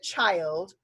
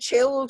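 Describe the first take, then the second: First: The i is a long vowel sound. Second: The i is a short vowel sound. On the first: The speaker calls it right. "It would have to be the child was kind" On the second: The speaker calls it wrong. "we can't say the chilled was kind"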